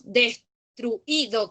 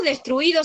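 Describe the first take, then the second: First: "destruido" slowly broken as des, tru, Í, do; wrongly accented demo. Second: Said in the usual way. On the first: Shown as a demonstration. Teacher shows what we don't say, "destruido" split with stressed í. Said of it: "No decimos destruido con tilde". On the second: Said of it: "Ponemos destruido sin tilde nosotros".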